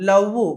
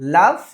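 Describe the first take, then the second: First: The final v sounds like a rounded oo. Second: The final v uses lower lip against teeth. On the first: The speaker calls it wrong. "ఊ అనకూడదు, లవ్ గివ్ అలా కాదు" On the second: The speaker calls it right. "కింది పెదవిని పై పంటితో నొక్కి పెట్టి చదవాలి"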